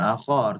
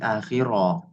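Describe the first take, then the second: First: The vowel after 'kh' sounds like 'o'. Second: The vowel after 'kh' sounds like 'i'. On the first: The speaker calls it wrong. "Bukan akhor" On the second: The speaker calls it right. "tapi akhirah"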